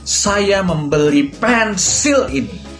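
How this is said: The word pensil is stressed. The thing bought was a pencil, not something else. "Aku akan menekankan kata pensil"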